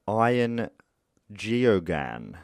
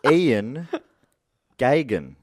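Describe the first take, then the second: First: The surname is said with three syllables. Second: The surname is said with two syllables. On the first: This is how the name looks like it should be said. The speaker calls it wrong. "if I was having a crack at it myself, I would have said" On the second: This is how the name is actually said. The speaker calls it right. "I've looked it up, and it's actually"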